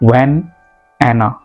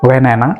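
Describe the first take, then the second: First: The words are separated by a short pause. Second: The final n runs straight into the next word. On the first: The speaker calls it wrong. "these are complete words, so there is sort of pause in between of them" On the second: The speaker calls it right. "You have to link them"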